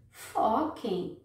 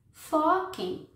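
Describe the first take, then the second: First: Said in the usual way. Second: "Foquem." higher and punched hard; emphatic repeat. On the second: Shown as a demonstration. Conselheira insiste com as meninas, "Foquem." enfático. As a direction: hit "Foquem." hard as a command.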